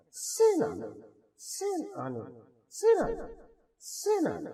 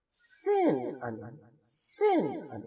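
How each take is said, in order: First: سین ان jumped much higher, quick and sing-song; mock the local mispronunciation of سین ان; imitating wrong reading. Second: سین ان slow with equal length on both syllables; correct slow syllables. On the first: Teacher mimicking how others say it, high mock sing-song. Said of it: "جب اس کو وہ پڑھتے ہیں ایسے پڑھتے ہیں". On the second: Shown as a demonstration. Teacher modelling the right way for students, slow even syllables. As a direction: stretch سین ان evenly and slowly. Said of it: "اتنا ان دونوں میں لے رہا ہوں".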